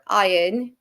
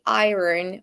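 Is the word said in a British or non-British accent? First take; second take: British; non-British. First: It is said in a British accent. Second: It is said in a non-British accent.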